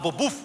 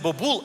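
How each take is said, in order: First: The word ends with a W sound. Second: The word ends with an L sound. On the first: The speaker calls it right. "а бобув" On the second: The speaker calls it wrong. "Українською правильно казати не бобул"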